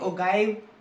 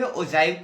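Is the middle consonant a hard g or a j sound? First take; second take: hard g; j sound. First: The middle consonant is a hard g sound. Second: The middle consonant is a j sound. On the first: The speaker calls it wrong. "बहुत सारे teacher आपको confuse कर देंगे" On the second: The speaker calls it right. "ये जो जी है वो जे से डिनोट करके ... हम लोग बोलेंगे ओजाइव कर्व"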